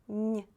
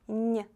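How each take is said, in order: Both takes have the same delivery.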